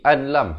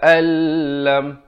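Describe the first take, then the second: First: The n is clearly heard before the l. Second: The n merges into a doubled l sound. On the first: The speaker calls it wrong. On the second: The speaker calls it right.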